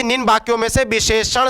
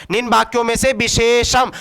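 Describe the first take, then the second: First: "विशेषण" said with a final retroflex n; corrected word. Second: "विशेषम" read with a final m sound; misprinted word read out. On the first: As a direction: end "विशेषण" on ṇ, not m. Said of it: "विशेषण होगा". ("विशेषण" के अंत में म नहीं, ण) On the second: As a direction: end "विशेषम" on m instead of retroflex n. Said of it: "विशेषम नहीं होगा मेरे भाई". ("विशेषम" के अंत में ण की जगह म) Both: Shown as a demonstration.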